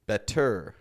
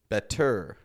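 First: The stress is on the second syllable. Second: The same.

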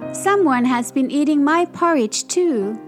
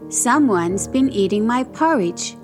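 First: It is said in Baby Bear's wee little voice. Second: It is bellowed in Papa Bear's great big voice.

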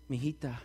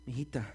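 Both takes have the same delivery.

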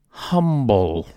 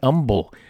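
First: The word starts with an audible H sound. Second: The word starts without an H sound. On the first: The speaker calls it wrong. "not Humble, like I pronounced it" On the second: The speaker calls it right. "Humble is pronounced just like that"

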